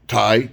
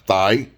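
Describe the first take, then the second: First: The word begins with a plain t sound. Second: The word begins with a th sound. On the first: The speaker calls it right. "it's pronounced, you know, Thai" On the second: The speaker calls it wrong. "not thigh"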